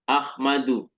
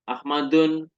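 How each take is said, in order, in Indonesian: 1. Kata ini berakhir dengan vokal, tanpa n. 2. Kata ini berakhir dengan bunyi n tambahan. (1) "tetap tidak boleh bertanwin" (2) "nggak boleh kita membaca"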